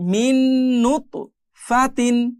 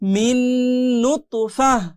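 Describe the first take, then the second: First: The word ends with a full -tin ending. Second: The word ends with a short -fah sound. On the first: The reading continues without stopping. "এই নুন আর এই নুন মিলে যাবে" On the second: The reader stops at this word. "থামলে ফা হা জবর ফাহ"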